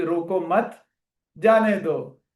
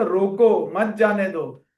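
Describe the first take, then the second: First: "रोको मत", a clear pause, then "जाने दो"; pause after मत. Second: "रोको" firm, a break, then "मत जाने दो" together; pause after रोको. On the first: Teacher showing students a misreading, pause after मत before जाने दो. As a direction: break the phrase after मत, so जाने दो stands alone. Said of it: "आपने मतलब कि रोको मत जाने दो". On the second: Teacher correcting to what was written, pause after रोको before मत जाने दो. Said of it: "उसमें लिखा था रोको मत जाने दो". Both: Shown as a demonstration.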